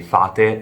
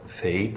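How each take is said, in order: First: It is said as the Italian word fate. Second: It is said as the English word fate. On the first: It means fairies. "everyone in Italy say Fate" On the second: It means destiny. "instead of Fate"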